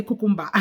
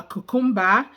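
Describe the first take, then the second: First: "cucumber" as even "koo-koom-ba", falling; guy's cucumber. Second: "cucumber" ending on an open "ah", rising; lady's cucumber. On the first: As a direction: say "cucumber" with the tune dropping at the end. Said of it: "and the guy say". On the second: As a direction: say "cucumber" as "koo-koom-BA", tune up. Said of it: "and the lady say". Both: Retold or imitated.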